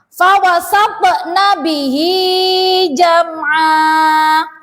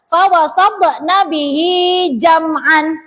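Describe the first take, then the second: First: The last word ends in a long vowel. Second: The last word ends in an n sound. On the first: The speaker calls it right. "dibaca seperti mat asli" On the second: The speaker calls it wrong. "Tidak boleh dibaca"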